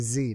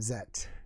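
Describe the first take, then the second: First: The letter is pronounced zee. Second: The letter is pronounced zed. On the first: This is the American way of saying it. "the American English is we say Z" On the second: This is the non-American way of saying it. "not Zet"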